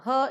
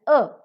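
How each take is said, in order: First: The word begins with an audible h sound. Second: The word begins directly with the vowel, no h. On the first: This form is used at the start of a sentence. "her in the beginning of the sentence" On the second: This form is used elsewhere in the sentence. "er without the pronunciation of her sound in elsewhere"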